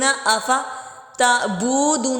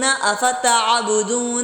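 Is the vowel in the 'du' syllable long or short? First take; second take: long; short. First: The vowel in 'du' is drawn out long. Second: The vowel in 'du' is kept short. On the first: The speaker calls it wrong. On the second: The speaker calls it right.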